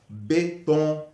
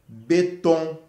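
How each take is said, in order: No difference in how they are said.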